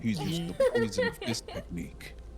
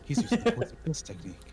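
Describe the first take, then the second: First: It is said in his normal voice. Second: It is said in a character voice.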